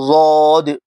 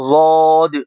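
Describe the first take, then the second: The two takes are said the same way.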